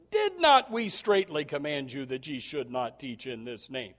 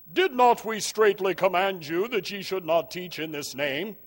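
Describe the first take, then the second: First: Said in the usual way. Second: A touch of a stern, solemn high priest. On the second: Acted. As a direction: lightly put on the high priest's accusing tone. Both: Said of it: "That's how I think he sounds".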